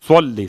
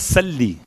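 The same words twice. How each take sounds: First: The s sound is heavy and emphatic. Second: The s sound is light and plain. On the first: The speaker calls it right. "स्वाद से" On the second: The speaker calls it wrong. "सीन से, बिल्कुल माना अपोजिट"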